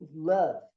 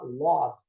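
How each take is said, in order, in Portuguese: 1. A vogal soa como 'a'. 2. A vogal soa como 'o'. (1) "a pronúncia é love" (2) "Muita gente fala love"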